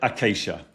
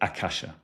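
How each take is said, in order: First: The word sounds like 'acacia'. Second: The word sounds like 'akasha'. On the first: This follows an older, personal way of saying it. "But I pronounce it acacia" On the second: This follows the original Sanskrit form. "a Sanskrit purist, the language Sanskrit, would pronounce it akasha"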